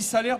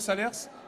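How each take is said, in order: First: The final S is silent. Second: The final S is pronounced. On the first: The speaker calls it right. "on dit salaire" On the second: The speaker calls it wrong. "plutôt que Salers"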